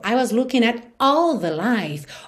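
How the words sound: "All" gets a fresh vocal attack for emphasis.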